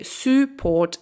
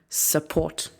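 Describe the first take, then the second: First: The first vowel is a full vowel. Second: The first vowel is a short reduced sound. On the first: The speaker calls it wrong. "We don't say support" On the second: The speaker calls it right. "It's just s"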